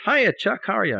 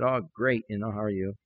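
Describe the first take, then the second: First: High, bouncy phone greeting; cheery caller. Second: Low, soft, half-hearted phone reply; discouraged. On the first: Long distance caller greeting Chuck, cheery. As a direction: imitate a chirpy friend calling. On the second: Discouraged preacher answering a caller, half-hearted. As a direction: feign being great with no energy. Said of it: "I was just really discouraged". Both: Retold or imitated.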